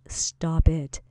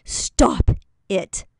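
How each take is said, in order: First: Whispered stop it, no voice. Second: Loud, sharp fatherly stop it; dad's stern command. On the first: Acted. Coach whispering the reminder to a listener in a funk. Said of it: "remember those two words". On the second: Retold or imitated. Dad scolding his acting-up kid, loud and stern. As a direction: snap it like a strict father. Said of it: "He'd be like".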